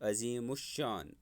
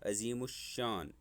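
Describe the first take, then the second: The two takes are said the same way.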